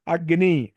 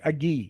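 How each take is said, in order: First: Said in the usual way. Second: అగ్గి with a doubled g and no n; dropped n sound. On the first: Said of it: "అగ్ని అనమంటే". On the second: Shown as a demonstration. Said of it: "ఆ నకారం పోతుంది". (నకారం లేకుండా "అగ్గి")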